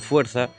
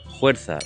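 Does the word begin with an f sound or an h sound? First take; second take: f sound; h sound. First: The first sound is a clear f. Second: The first sound is a breathy h. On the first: This is the standard form. "y non" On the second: This is the central dialect's everyday form. "es muy común que se aspire la F"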